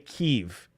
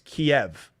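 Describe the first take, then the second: First: The name is said in a native-sounding way. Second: The name is said in plain English style. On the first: It tries to sound cultured. The speaker calls it wrong. "I don't say Kiev" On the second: It is the ordinary English way. The speaker calls it right. "it's Kiev. You're in America"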